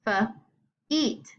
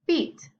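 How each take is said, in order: First: "feet" split after the F; feet sounded out. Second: Said in the usual way. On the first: Shown as a demonstration. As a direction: pause between F and long E in "feet". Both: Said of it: "make their long sound".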